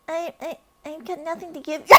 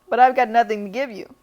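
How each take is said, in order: First: It is said in a timid, hesitant voice. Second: It is said in a plain, steady voice.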